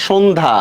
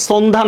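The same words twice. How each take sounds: First: সন্ধ্যা begun with a hushed sh, not s; correct sh sound. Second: সন্ধ্যা begun with s instead of sh; wrong s sound. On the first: Teacher gives Abdullah the right form, সন্ধ্যা with an sh sound. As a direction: say সন্ধ্যা with an sh at the start, 'shondha'. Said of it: "এটা সন্ধ্যা". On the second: Teacher corrects Abdullah's answer, showing সন্ধ্যা with a wrong s sound. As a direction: say সন্ধ্যা with a dental s at the start, 'sondha'. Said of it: "এটা সন্ধ্যা না". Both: Shown as a demonstration.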